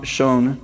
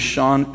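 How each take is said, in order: First: "shone" with a long O; corrected vowel. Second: "shone" with a short open vowel, like "shawn"; mispronounced vowel. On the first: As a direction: say "shone" to rhyme with "bone". Second try at the word. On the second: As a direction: say "shone" to rhyme with "gone". Reader corrects own pronunciation. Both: Real, not acted.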